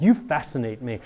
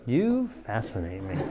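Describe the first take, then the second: First: Sincere. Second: Dismissive. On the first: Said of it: "actually, we mean it". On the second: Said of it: "not like". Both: Shown as a demonstration.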